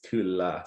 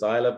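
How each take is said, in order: First: The name ends without the 'eye-la' sound. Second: The name ends with an 'eye-la' sound. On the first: The speaker calls it right. "but it's it's Kula" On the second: The speaker calls it wrong. "a lot of people say Isla because it's Isla"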